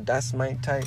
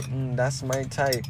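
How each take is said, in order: First: Said in the usual way. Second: Slow, drawn-out "Mm, that's my type"; a slow, appreciative repeat; slow savoring. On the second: Shown as a demonstration. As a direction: savor it slowly, as if tasting the words.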